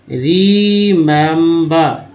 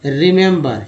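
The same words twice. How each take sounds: First: "रिमेंबर" stretched out very slowly, each syllable clear; slow careful pronunciation. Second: Said in the usual way. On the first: Shown as a demonstration. Teacher shows students the three e sounds, very slowly. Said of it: "रिमेंबर में तीन ई". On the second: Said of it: "क्या उच्चारण हो रहा है?".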